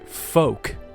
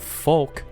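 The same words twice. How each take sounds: First: The L sound is silent in the word. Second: The L sound is pronounced in the word. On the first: The speaker calls it right. "some people have pointed out that" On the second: The speaker calls it wrong. "when there's an L um, near the end of a word, I pronounce it like folk"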